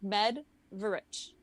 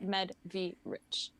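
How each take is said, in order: First: The V is unemphasized, giving two syllables. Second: The V is emphasized as its own syllable. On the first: The speaker calls it right. "you basically don't emphasize the V ... Two syllables" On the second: The speaker calls it wrong. "why am I emphasizing the V?"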